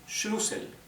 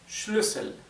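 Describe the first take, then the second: First: The first vowel is a plain u sound. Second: The first vowel is a fronted ü sound. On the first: The speaker calls it wrong. "Si no tuviera la diéresis sería Schlüssel" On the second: The speaker calls it right. "Como tiene la diéresis o umlaut es Schlüssel"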